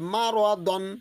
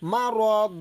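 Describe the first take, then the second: First: The word ends with a short a plus n. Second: The word ends on a lengthened a vowel. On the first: The reciter continues without stopping. "আপনি যদি পড়ে যান তাহলে আপনাকে বলতে হবে মা র দন" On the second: The reciter stops at this point. "দম ফেলিবার সময় যদি দুই জবর থাকে তাহলে একটা জবরকে বাদ দিয়ে এক আলিফ পরিমাণ টানতে হবে"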